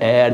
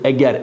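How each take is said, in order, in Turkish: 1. Ortadaki g yumuşak ve kayan. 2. Ortadaki g sert ve vurgulu. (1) "eğer değil, yumuşak değil" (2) "bakın biraz vurguluyoruz"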